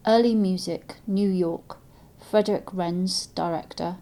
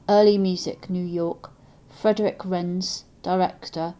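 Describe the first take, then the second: No difference in how they are said.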